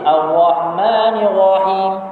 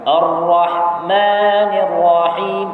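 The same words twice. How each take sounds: First: The r is released far too loosely. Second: The r is moderate, neither tight nor loose. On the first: The speaker calls it wrong. "Kalau rakhawah sangat pula" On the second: The speaker calls it right. "dia pertengahan"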